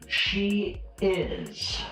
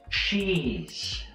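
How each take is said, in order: First: It is said as two separate full words. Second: It is said as one contracted syllable.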